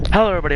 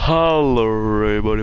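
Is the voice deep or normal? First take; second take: normal; deep. First: It is said in his normal voice. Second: It is said in a put-on deep voice.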